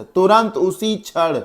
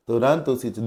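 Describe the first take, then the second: First: "तुरंत" hit high and drawn out; teacher का ज़ोर देकर "तुरंत" कहना; emphatic definition. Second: Said in the usual way. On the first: Shown as a demonstration. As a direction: say "तुरंत उसी क्षण" slowly with a high "तुरंत".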